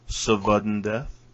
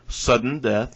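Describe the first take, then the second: First: The first word is said with a 'v' sound. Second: The first word is said as ordinary 'sudden'.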